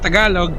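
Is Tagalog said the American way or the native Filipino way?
Filipino. It is said the native Filipino way. This is how the speaker's countrymen expect it said. The speaker calls it right. "instead of saying Tagalog"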